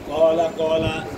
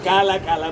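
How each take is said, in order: First: The first vowel sounds dark and heavy. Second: The first vowel sounds light and open. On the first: The speaker calls it right. "মোটা করে ইস্তিলা" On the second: The speaker calls it wrong. "কা বলা যাবে না"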